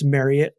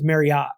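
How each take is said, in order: First: The name rhymes with chariot. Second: The name does not rhyme with chariot. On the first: The speaker calls it right. "no, it's Marriott, like Chariot" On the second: The speaker calls it wrong. "everyone says Marriott"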